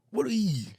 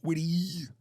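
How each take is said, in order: First: Said in the usual way. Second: Breathy half-whisper of the phrase. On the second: Pretend. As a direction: whisper it to yourself. Mimicking sounds.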